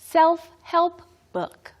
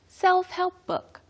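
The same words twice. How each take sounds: First: The phrase is said at a slow pace. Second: The phrase is said at a quicker pace.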